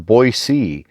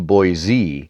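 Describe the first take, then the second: First: The name is said the way locals say it. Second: The name is said the way outsiders say it. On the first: It is how people raised in the area say it. The speaker calls it right. "those who grew up hereabouts generally prefer Boise" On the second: It is how people from elsewhere say it. The speaker calls it wrong. "Outsiders often say Boise"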